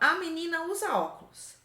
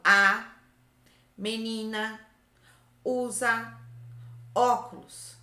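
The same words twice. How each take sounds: First: The words run together without pauses. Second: Each word is separated by a pause.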